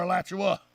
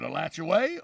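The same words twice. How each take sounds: First: Alachua ending 'uh', uh-LATCH-oo-uh; county pronunciation. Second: Alachua ending 'way', uh-LATCH-oo-way, rising; town pronunciation. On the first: Offering the other option, Alachua with 'uh' ending. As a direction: close Alachua on a short 'uh'. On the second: Asking which is right, Alachua with 'way' ending. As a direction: lift Alachua onto a final 'way'. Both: Shown as a demonstration. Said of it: "So what is it".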